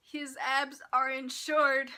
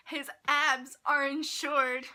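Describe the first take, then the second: First: Said in the usual way. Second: "abs" and "insured" hit loud and slow; loud, drawn-out stress on "abs"; incredulous emphasis. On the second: Real, not acted. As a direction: spell out "His abs are insured" slowly, in disbelief. Repeats the absurd fact for emphasis.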